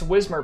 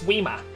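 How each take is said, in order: First: It is said in a plain, unaffected accent. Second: It is said in a put-on English accent.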